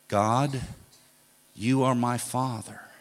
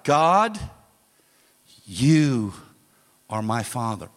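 First: It is said firmly at normal loudness. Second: It is shouted loudly.

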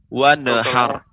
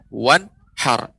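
First: An extra vowel is heard between n and h. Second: The n runs straight into h without a vowel. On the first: The speaker calls it wrong. "Tadi terdengar seperti. Nah ini terdengar Bapak. Nun ya. Menjadi kolkolah" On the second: The speaker calls it right. "seharusnya ya"

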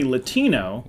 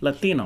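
First: It is said with a plain American accent. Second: It is said with a Spanish, Hispanic accent.

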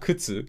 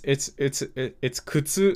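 First: It has a regional pitch pattern. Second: It has the standard pitch pattern. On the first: This is how someone from another region says it. The speaker calls it wrong. "not kutsu. ... thought that what she said sounded so weird" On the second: This is how most of the group says it. The speaker calls it right. "It's kutsu"

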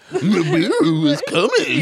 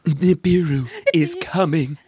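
First: It is said in a silly cartoon-dog voice. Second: It is said in a scary human voice. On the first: "if she had a voice like Scooby-Doo" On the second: "in a scary human voice"

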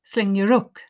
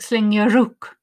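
First: The h at the start of hook is dropped. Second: The h at the start of hook is dropped.

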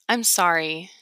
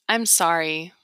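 Both takes have the same delivery.

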